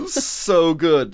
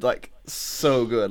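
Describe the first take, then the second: First: Said in the usual way. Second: So good stretched out very slowly; drawn-out emphasis. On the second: Real, not acted. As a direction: linger on every word of so good. Gushing over the cameos.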